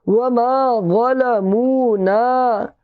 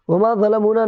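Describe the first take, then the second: First: वमा ज़लमूना chanted slowly with long held vowels; stretched vowels. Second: वमा ज़लमूना said fast with short vowels; unstretched wrong way. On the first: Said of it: "इसको खींच करके बोलेंगे". (वमा ज़लमूना खींच कर, धीरे) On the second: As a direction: rattle off वमा ज़लमूना without stretching it. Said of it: "नहीं बोलेंगे". (वमा ज़लमूना बिना खींचे, जल्दी से) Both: Shown as a demonstration.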